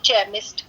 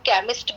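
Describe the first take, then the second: First: The word begins with a ch sound. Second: The word begins with a k sound. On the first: "कई लोग उसे चेमिस्ट" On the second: "कभी उसे क बोला जाता है"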